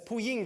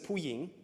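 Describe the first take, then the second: First: Ying carries the tone of the word 'supreme'. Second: Ying carries the tone of the word 'woman'. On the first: It means most high. The speaker calls it right. "It's Pu Ying versus Pu Ying" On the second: It means woman. The speaker calls it wrong. "It's Pu Ying versus Pu Ying"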